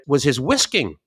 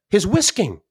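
First: Said in the usual way. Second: "whisking" lifted high and leaned on with delight; stress on whisking. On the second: Real, not acted. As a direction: relish the word "whisking" with proud emphasis.

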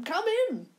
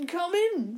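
First: Even higher eager repeat; excited host waving them in; eccentric old man. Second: Put-on high, eager old man welcome; bright excited host calling in; eccentric old man. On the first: Acted. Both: Eccentric old man greets guests.

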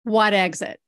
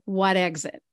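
First: Put-on emphatic New Jersey accent. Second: Put-on casual New Jersey accent, quoting locals. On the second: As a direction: toss off the question like a Jersey local. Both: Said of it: "a New Jersey accent".

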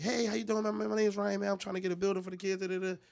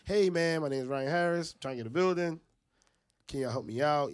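First: High, chirpy, quick enthused greeting; enthused pitch. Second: Louder, less chirpy appeal after repeated noes; pitch after rejections. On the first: Fundraiser greeting the first car, enthused. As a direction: rattle off an eager sales pitch up high. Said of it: "You so enthused". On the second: Fundraiser to the fifth car after hearing no, pleading. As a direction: push the worn-down plea out loud. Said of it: "and they keep saying no". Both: Retold or imitated.

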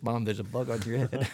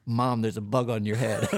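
First: Said in the usual way. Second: Laughing. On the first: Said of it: "[name] reads". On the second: Retold or imitated. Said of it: "Ava had put in for her answer".

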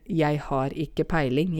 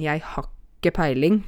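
First: Said in the usual way. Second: "har ikke" merged into "hakke"; sammentrukket dialekt. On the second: Shown as a demonstration. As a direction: run "har ikke" together as one short word. («har ikke» dratt sammen til «hakke») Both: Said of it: "Og så sier vi jo".

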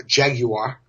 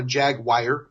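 First: Jaguar said as JAG-you-ar; three-syllable Jaguar. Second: Jaguar said as JAG-wire; two-syllable Jaguar. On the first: Car fan showing off the proper name, Jaguar as JAG-you-ar. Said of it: "Three syllables for those of you". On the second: Teasing those who mispronounce the car, Jaguar as JAG-wire. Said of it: "those of you that call it a". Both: Shown as a demonstration.

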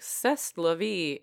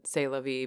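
First: "C'est" said slowly as "sess"; misread French. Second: Said in the usual way. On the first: Retold or imitated. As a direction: sound out the S's in "C'est la vie". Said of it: "but I looked at it, I was like". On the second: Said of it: "it said "C'est la vie".

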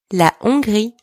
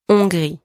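First: "La Hongrie" with no H sound, said "on-gree"; "La Hongrie" sans aspirer le H; silent H. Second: "Hongrie" said "on-gree", no H at the start; "Hongrie" without any H; silent H. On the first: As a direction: drop the H in "Hongrie", open on the vowel. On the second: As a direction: start "Hongrie" straight on the nasal vowel. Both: Shown as a demonstration. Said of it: "don't pronounce the H here".

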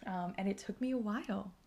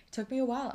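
First: Said in the usual way. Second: A while pushed up, higher and louder; emphatic repeat. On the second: Real, not acted. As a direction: lean hard on "a while".

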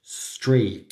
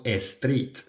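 First: Street starting straight on the s, no e; correct English street. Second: Street said as estreet with an added e; wrong Spanish-style street. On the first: Teacher giving the correct street. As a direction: begin street right on the s. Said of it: "no, street". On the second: Teacher showing the wrong estreet. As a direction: put an e before the s of street. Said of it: "No decimos street". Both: Shown as a demonstration.

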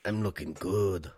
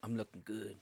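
First: Slow imitation with Mexican accent; mock Mexican accent. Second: Low-key, much softer sensual line; deep sensual voice. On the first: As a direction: mimic it slowly, exaggerating a Mexican accent. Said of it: "You said, "I'm looking good". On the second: Real, not acted. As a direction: drop it soft and smooth, deep-voiced. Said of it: "You said it with a Mexican accent".

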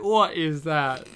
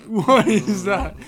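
First: Puzzled question at the actor's line; baffled. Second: Louder, laughing through the question; laughing disbelief. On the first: Reacting to a strange movie accent, puzzled. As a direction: ask it like you can't place the sound. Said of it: "and I'm like". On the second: Reacting to a strange movie accent, laughing loudly. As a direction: crack up as you repeat it. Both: Retold or imitated.

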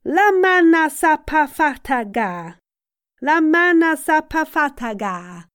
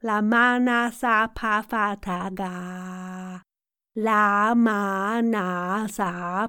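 First: Vocal warm-up. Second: Slow, drawn-out, even syllables at speaking pitch; vocal warm-up. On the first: Coach leading a warm-up, high sustained chant. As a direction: project the syllables high and long. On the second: Coach leading a warm-up, slow level chant. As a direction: stretch each syllable evenly. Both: Shown as a demonstration.

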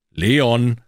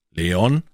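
First: LEON called louder and higher; insistent call. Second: LEON with rising, asking tune; questioning call. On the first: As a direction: call „Leon!“ loudly to get attention. Calls again after no response. („Leon!“ lauter, nachdrücklicher Ruf) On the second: Calls unresponsive friend, first try. („Leon?“ fragend, mit steigender Stimme) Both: Acted.

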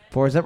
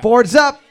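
First: Said in the usual way. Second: Loud, high quizmaster call. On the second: Real, not acted. Host calls time to teams.

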